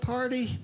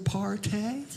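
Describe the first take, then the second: First: The word ends with an 'ee' sound. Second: The word ends with an 'ay' sound.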